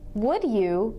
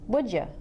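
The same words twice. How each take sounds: First: Each word is said fully and separately. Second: The words blend into one reduced sound.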